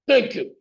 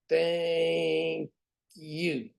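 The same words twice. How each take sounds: First: It is said in a barking drill sergeant voice. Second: It is said in a flat mechanical robot voice. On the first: "Here's my drill sergeant" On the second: "Here's my robot"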